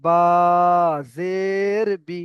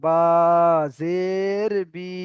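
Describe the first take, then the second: First: বা জের বি with long names and short বি; correct running ending. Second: বা জের বি with final বি dragged long; wrongly stretched ending. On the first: Teacher models the right reading, বি kept short. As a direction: stretch বা and জের, clip final বি. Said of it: "running পড়তে হবে". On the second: Teacher shows the faulty reading, বি stretched out long. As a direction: hold all three, lengthening বি too. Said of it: "তাহলে আমার ভুল হবে পড়াটা". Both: Shown as a demonstration.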